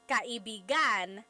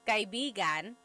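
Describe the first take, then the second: First: The stress falls on a different syllable. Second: The stress falls in its usual place. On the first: It means lover. "if you put the stress somewhere else" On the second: It means friend. "So kaibigan means friend"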